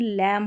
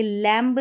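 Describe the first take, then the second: First: लैम ending on m, no b; silent b. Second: लैम्ब with the final b wrongly sounded; mispronounced लैम्ब. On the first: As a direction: close लैम on the m. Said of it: "ये लैम्ब नहीं". (लैम, बिना ब के) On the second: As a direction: voice the b ending लैम्ब. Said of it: "लैम होगा". (लैम्ब में ब बोलकर ग़लत उच्चारण) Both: Shown as a demonstration.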